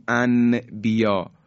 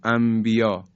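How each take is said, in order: First: انبیا said anbiya with a distinct n; wrong clear nun. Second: انبیا said ambiya, n becoming m; nun turned to mim. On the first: Teacher showing the wrong form, anbiya. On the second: Teacher showing the right form, ambiya. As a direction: lips close early on انبیا, ambiya. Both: Shown as a demonstration.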